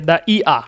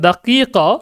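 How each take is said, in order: First: The middle consonants are glottal stops. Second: The middle consonants are k sounds. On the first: This is the Egyptian regional form. "কফকে তারা হামজা বলে... তারা সেটাকে বলবে যে দা ইয়া" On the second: This is the standard form of the word. "দাকিকা মানে হচ্ছে এক মিনিট"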